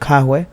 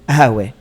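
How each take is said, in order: First: It is said with a k sound at the start. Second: It is said with no consonant at the start.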